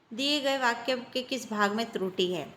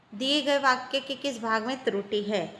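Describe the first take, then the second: The two takes are said the same way.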